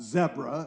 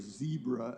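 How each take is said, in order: First: It is said with a British pronunciation. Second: It is said with an American pronunciation. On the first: "as the British would say" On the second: "as it was called"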